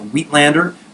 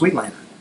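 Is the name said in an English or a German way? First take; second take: English; German. First: It sounds like the English words wheat and lander. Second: It is said with a German-style pronunciation. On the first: This is how people commonly say it. "like wheat and lander" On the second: This follows the surgeon's original name. "named after a German surgeon, Wheatlander, and it's pronounced Wheatlander"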